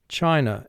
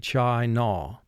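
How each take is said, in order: First: The word is said at a normal, natural pace. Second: The word is said slowly with exaggerated articulation.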